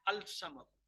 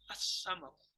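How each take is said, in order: First: An l sound is heard before the s. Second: No l sound; the s is doubled. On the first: The speaker calls it wrong. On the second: The speaker calls it right.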